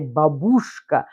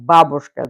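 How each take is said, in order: First: The stress is not on the first syllable. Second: The stress is on the first syllable. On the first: This is how it is said in America. "saying that in America, for some reason, the stress, they decided to say babushka" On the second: This is how it is said in Russian. "The stress falls onto the first syllable"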